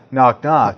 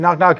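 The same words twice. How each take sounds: First: It is said slowly. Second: It is said fast.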